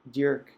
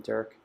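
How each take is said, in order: First: Dirk as "Dyoork", with a y-glide after the D; Flemish pronunciation. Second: Said in the usual way. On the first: Shown as a demonstration. Repeating a late friend's name properly, Dirk pronounced in Flemish. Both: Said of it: "as we would probably pronounce in Flemish".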